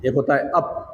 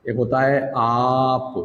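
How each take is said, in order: First: अप said with a short clipped a. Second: आप said with a long drawn-out aa, slowly. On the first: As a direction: say अप with a quick short vowel. (अप छोटी आवाज़ से, जल्दी) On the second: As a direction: stretch the aa in आप. (आप में लंबा आ खींचकर) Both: Shown as a demonstration. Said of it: "एकदम करेक्ट प्रोनाउंसिएशन".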